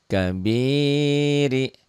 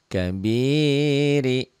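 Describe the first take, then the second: No difference in how they are said.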